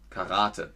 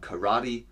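First: It is said with a German pronunciation, stressing the A. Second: It is said with an American pronunciation. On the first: "in Deutschland sagt man Karate. Man betont das A" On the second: "in den USA, glaube ich, sagt man Karate"

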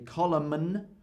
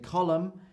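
First: An extra consonant sound is pronounced at the end. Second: No extra consonant sound is pronounced at the end. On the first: The speaker calls it wrong. "I don't say column" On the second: The speaker calls it right. "I say column"

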